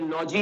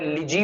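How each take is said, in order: First: The vowel is an open 'aw' sound. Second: The vowel is a short reduced 'ih' sound. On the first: The speaker calls it wrong. "ये लॉजी नहीं पढ़ना है इसको" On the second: The speaker calls it right. "ये word लिजी होता है"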